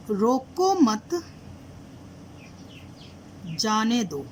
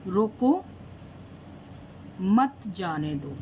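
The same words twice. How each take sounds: First: "रोको मत" held together, long break, then "जाने दो"; pause after मत. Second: "रोको" alone, long break, then slow "मत जाने दो"; pause after रोको. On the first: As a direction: say रोको मत as one phrase, stop, then जाने दो. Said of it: "कॉमा लगा दिया". ("मत" के बाद लंबा ठहराव) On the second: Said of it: "comma change करती हूँ". ("रोको" के बाद लंबा ठहराव) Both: Shown as a demonstration.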